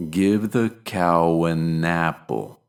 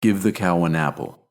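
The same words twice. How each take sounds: First: "cow an" slowed, linked with a W glide. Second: Said in the usual way. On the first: Shown as a demonstration. Teacher slowing down to show the W link. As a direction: slowly join "cow" to "an" with a W. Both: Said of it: "The same goes for words".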